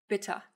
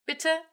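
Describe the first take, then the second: First: 'bitte' pronounced bitt-ah; A schwa. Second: 'Bitte' pitched up, ending in uh; E schwa. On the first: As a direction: end 'bitte' on a short open a. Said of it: "A schwa for the latter". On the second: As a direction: say 'Bitte' higher, with a swallowed final e. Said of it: "E schwa for the former". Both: Shown as a demonstration.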